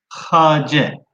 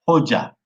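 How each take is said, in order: First: The first vowel is an a sound. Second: The first vowel is an o sound. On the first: This is the original form of the word. "Kelimenin aslı hace" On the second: This is how Turkish speakers say it today. "biz Türkçemizde onu hoca diye telaffuz ediyoruz"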